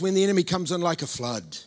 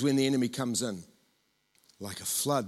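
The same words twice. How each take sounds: First: The pause comes after the word 'flood'. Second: The pause comes after the word 'in'. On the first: The enemy is the one coming like a flood. The speaker calls it wrong. "We put the comma in the wrong place. We read it like this" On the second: The Spirit of the Lord is the one coming like a flood. The speaker calls it right. "I think it goes"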